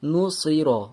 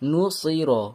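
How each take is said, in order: The two takes are said the same way.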